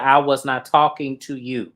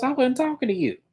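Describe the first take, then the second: First: "I was not talking to you" in firm, separated words; "not" stressed, each word set apart; emphatic retold rebuff. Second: High-pitched dismissive comeback; mock put-down in a high voice; retold rebuff. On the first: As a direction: hit "was not" hard, louder, in an imitated rebuff. Retold reply repeated with emphasis. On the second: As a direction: imitate a dismissive reply, pitched well up. Retold snappy reply in a quarrel.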